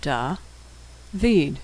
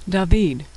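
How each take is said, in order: First: Syllable by syllable. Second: Said in the usual way. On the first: Shown as a demonstration.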